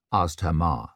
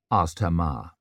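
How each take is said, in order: Both takes have the same delivery.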